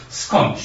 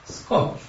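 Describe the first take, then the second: First: Said in the usual way. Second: Breathy whispered Skończ; whispered plea. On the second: Shown as a demonstration. Preacher echoing the psalm to the congregation, whispered. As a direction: whisper it like a private prayer.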